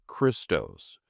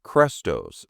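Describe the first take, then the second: First: Christos said KRIST-ose, with an I. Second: Christos said KREST-ose, with an E; Chrestos with E. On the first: Host contrasting the two Greek titles: KRIST-ose. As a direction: Christos as Khristos, short I. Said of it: "not an I". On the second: Host contrasting the two Greek titles: KREST-ose. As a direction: Christos as Khrestos, open E. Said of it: "with an E". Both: Shown as a demonstration.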